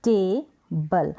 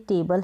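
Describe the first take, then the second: First: टेबल very slowly, as टे, then बल; syllable by syllable. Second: Said in the usual way. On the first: Shown as a demonstration. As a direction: hold a long "tay" in टेबल, pause, then "bal". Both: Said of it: "इसको हम break करेंगे".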